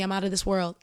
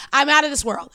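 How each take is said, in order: First: Said in the usual way. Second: Higher and louder, a proclamation; out punched high and loud; loud proud declaration. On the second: Shown as a demonstration. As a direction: announce it to the whole pod. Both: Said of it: "I'ma say this right here on the pod".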